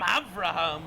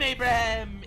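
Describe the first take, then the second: First: The name starts with av-rah and has a v. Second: The name starts with a-brah and has a b. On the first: This is the Israeli form of the name. "In Israel, they call him Avraham" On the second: This is the American form of the name. "In America, we call him Abraham"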